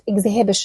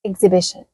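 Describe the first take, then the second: First: The h sound is pronounced. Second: The h sound is silent. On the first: The speaker calls it wrong. "ما بقولهاش" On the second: The speaker calls it right. "ال H دي تجاهلها تماما"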